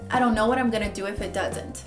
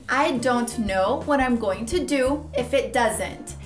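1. A frase é dita rápido, com formas reduzidas das palavras. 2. A frase é dita devagar, com formas completas das palavras.

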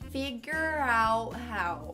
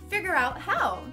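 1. A frase é falada devagar e com cuidado. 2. A frase é falada rapidamente e de forma fluida. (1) "Falando devagar" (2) "Rápido"

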